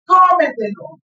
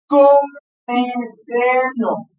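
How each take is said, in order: First: Said in the usual way. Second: "Cómetelo" slowly, syllable by syllable; syllables drawn out. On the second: Shown as a demonstration. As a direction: stretch out "Cómetelo" for the class. ("Cómetelo" pronunciado muy despacio, sílaba por sílaba) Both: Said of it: "Ahí está".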